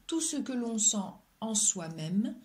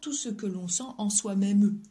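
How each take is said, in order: First: The word ends on the m sound. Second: The final e of même is pronounced. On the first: The speaker calls it right. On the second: The speaker calls it wrong.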